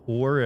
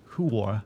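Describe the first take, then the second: First: Said in the usual way. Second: "whore" said as HOO-er; two-syllable whore. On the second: Shown as a demonstration. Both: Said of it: "say the word whore as whore".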